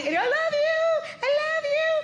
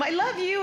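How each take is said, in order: First: Put-on high, slow sweet little boy voice; little child voice. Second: Said in the usual way. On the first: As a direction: coo it like a small child. Little boy voiced, mother imitates.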